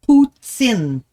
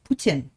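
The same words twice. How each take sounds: First: The middle consonant is a ts sound. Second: The middle consonant is a plain t sound. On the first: "we really do add a t's as the T instead. So it's" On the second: "Like poo tin. Like like a tin roof"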